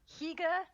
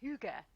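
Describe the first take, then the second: First: The first vowel sounds like 'ee'. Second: The first vowel sounds like 'oo'. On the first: The speaker calls it wrong. "I used to pronounce it" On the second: The speaker calls it right. "before I actually learned the pronunciation of"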